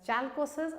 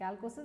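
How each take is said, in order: First: The word begins with a ch sound. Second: The word begins with a k sound. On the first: "Some people pronounce it as chalcosis" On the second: "I prefer to call it calcosis"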